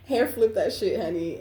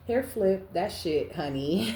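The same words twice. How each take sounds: First: "Hair flip that shit" repeated louder and higher, sassy; sassy emphasis. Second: Said in the usual way. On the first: Shown as a demonstration. Reader repeating the card's line to her viewers, with louder diva sass.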